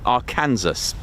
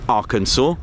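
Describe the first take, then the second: First: The word is said just as it is spelled. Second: The word is not said the way it is spelled. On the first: The speaker calls it wrong. "Good old Nikos with his pronunciation goes Arkansas" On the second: The speaker calls it right. "I had no idea it was pronounced Arkansas"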